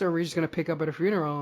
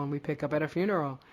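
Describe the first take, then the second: First: Fast, curious musing; quick wondering question. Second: Said in the usual way. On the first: Retold or imitated. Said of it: "we were like".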